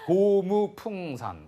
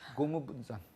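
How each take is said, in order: First: The third syllable is said as a clear pung. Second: The third syllable is softened to sound like bun. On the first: The speaker calls it wrong. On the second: The speaker calls it right.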